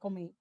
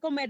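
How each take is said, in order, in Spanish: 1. Se dice con la pronunciación regional del Cibao. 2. Se dice con pronunciación del español estándar. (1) "dice comer" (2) "en vez de decir comer"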